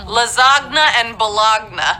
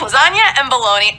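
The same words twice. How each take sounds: First: Each word is sounded out letter by letter. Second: Each word uses its usual everyday pronunciation. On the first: The speaker calls it wrong. "they look like they're supposed to be said as" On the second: The speaker calls it right. "but they're"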